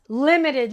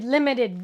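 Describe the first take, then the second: First: Emphatic. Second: Said in the usual way. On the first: Shown as a demonstration. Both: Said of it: "very, very limited".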